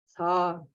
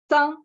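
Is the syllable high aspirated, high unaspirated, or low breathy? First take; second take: low breathy; high unaspirated. First: Low tone with a slight puff of breath. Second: High tone with no puff of breath. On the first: "третий низкий тон с небольшим придыханием" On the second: "первая высокий тон без придыхания"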